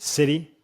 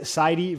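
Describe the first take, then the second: First: The name sounds like the word 'city'. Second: The name does not sound like 'city'. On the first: The speaker calls it right. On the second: The speaker calls it wrong.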